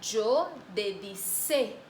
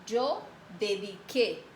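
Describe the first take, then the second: First: Slow wrong "dedicé", s not k; wrong form demo. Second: "yo dediqué" slowly, with a hard k sound in "dediqué"; slow correct "dediqué", k not s; correct form. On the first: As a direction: show the mistake, slow, s instead of k. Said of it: "Entonces no se queda bien". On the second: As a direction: model the right form, slow and clear, hard k. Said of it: "Si yo mantengo la letra C aquí". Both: Shown as a demonstration.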